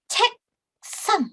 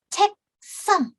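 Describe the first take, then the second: Both takes have the same delivery.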